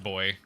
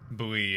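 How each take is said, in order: First: It is said as one syllable, like boy. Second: It is said as two syllables, boo-ee. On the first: This is how people on the coasts say it. "If you go to the different coasts, usually you'll you'll hear it pronounced boy" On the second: This is how people everywhere else say it. "Bowie is more of uh, everywhere else"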